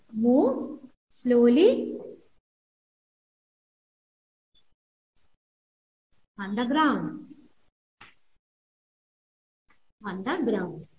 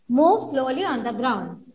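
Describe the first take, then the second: First: Drawn out, slowing and fading; acted slowly. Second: Said in the usual way. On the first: Shown as a demonstration. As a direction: let the words creep along slowly. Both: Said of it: "Creep means move slow".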